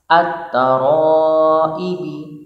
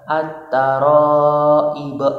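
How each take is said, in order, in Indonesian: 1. Kata ini diakhiri vokal pendek. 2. Kata ini diakhiri konsonan mati. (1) "bertanda kasroh" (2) "diwakafkan harus dibaca sukun"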